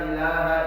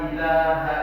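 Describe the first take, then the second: Both takes have the same delivery.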